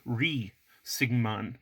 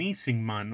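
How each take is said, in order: First: The name begins with an R sound. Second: The name begins with an N sound. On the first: "transcribed in English with R H E E" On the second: "you could also have an N sound"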